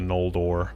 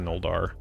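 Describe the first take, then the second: First: The last syllable ends with an 'or' sound. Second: The last syllable rhymes with 'Valar', ending in 'ar'. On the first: The speaker calls it right. "It's the Noldor" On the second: The speaker calls it wrong. "I always say Noldar, like the Valar"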